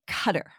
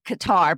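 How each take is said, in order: First: Qatar is pronounced the local, native way. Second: Qatar is pronounced the usual American way. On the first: This is how the name is really pronounced. "It's really Qatar" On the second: This is how people in the U.S. usually say it. "we know as U.S. people, we always have said Qatar"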